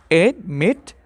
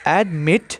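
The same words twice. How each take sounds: First: "admit" in two parts, "ad", pause, "mit"; split into syllables. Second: Said in the usual way. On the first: Shown as a demonstration. Teacher shows students the two syllables, saying "admit" split as ad, mit. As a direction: break "admit" apart after "ad". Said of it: "two syllables". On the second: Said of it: "Examples are".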